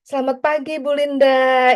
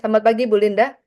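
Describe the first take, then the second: First: It is said cheerfully, with a smile. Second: It is said flatly, without a smile.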